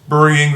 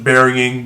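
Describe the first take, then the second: First: The first syllable sounds like 'burr'. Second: The first syllable sounds like 'berry'. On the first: "that's how I like to pronounce it" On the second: "Most of you guys would probably pronounce it burying"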